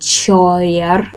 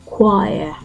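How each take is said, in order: First: It sounds the way the letters suggest. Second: It sounds unlike the way the letters suggest. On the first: The speaker calls it wrong. "You might expect it to be pronounced as choir" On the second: The speaker calls it right. "It's pronounced choir"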